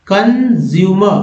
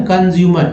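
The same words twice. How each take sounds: First: कंज्यूमर slowly, in drawn-out parts; syllable-by-syllable demo. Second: Said in the usual way. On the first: Shown as a demonstration. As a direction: stretch कंज्यूमर out as con-zyu-mer. Teacher assembles word from its parts.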